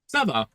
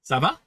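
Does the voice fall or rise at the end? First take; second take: fall; rise. First: The pitch falls at the end. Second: The pitch rises at the end. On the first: It answers that things are fine. "Ça va going down is an answer" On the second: It asks how someone is doing. "ça va going up is a question"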